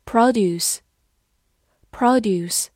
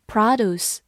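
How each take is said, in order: First: "produce" stressed on the first syllable, PROD-yoos; noun pronunciation. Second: "produce" as American PRAH-doos, no y-glide; American pronunciation. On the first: Teacher reading the other form of "produce", noun pronunciation PROD-yoos. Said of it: "或者读作". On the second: Teacher showing learners the noun "produce", American pronunciation PRAH-doos. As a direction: stress the open "PRAH" in "produce", then "doos". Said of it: "美式发音". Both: Shown as a demonstration.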